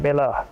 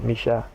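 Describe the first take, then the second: First: The double L sounds like a plain L. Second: The double L sounds like an SH.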